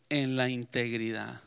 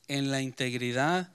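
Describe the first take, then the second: No difference in how they are said.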